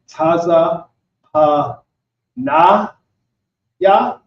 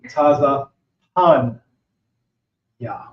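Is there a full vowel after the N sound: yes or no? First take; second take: yes; no. First: The N is followed by a full vowel. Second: The N is said without a following vowel. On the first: The speaker calls it wrong. "instead of saying Taza Pa Na Ya" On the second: The speaker calls it right. "the A gets dropped off in the sounding"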